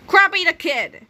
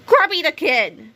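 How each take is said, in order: First: Put-on "Croppy the Kid" said higher with a falling flourish; name announced. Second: Put-on "Croppy the Kid" raised, slow with falling end; name announced. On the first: Narrator naming the kid, "Croppy" raised and falling. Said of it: "let's call the kid". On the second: Narrator reading the chart, "Croppy" raised, slow. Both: A narrator's reading.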